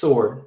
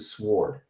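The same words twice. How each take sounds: First: The word is said without a W sound. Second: The word is said with a W sound. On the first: "when I was growing up, it, it was sword" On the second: "there is actually a W in there... transitioning into sword"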